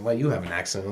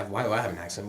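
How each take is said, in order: First: "you" picked out, rising retort; stress on YOU. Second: "I" picked out, rising question; stress on I. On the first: Speaker retells turning the accent question on classmates, stress on "you". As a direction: throw the question back on "you". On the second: Speaker retells answering classmates about his accent, stress on "I". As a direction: lean on "I" as the question rises. Echoing question, then turned back. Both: Retold or imitated.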